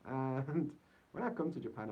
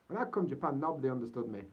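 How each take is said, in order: First: Said in the usual way. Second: Yorkshire accent. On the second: Shown as a demonstration. Vlogger in Japan repeats his line for viewers, broad Yorkshire accent. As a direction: drop into full Yorkshire for the line. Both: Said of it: "I'll say that again in Yorkshire".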